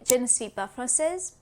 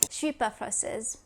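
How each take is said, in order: First: Every word is said fully, including ne. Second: The ne is dropped and je is contracted. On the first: The speaker is a beginner. "A beginner in French would say" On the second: The speaker is fluent. "a fluent French speaker would say"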